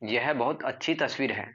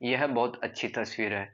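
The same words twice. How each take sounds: First: It is said with a surprised tone. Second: It is said in a plain, neutral tone. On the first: The speaker is amazed by the picture. "उस तस्वीर से मैं surprise हो रहा हूँ" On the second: The speaker is simply giving information. "आपने बस normal सा बोल दिया"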